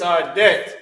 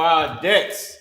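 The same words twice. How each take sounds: First: "debt" ending on t, without an s; singular debt. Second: "debts" with an s after the t; plural debts. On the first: Teacher rereading the prayer line, singular "debt". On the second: Teacher correcting the prayer line, plural "debts". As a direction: finish "debts" on a clear ts. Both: Shown as a demonstration. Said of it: "I put a plural S on it".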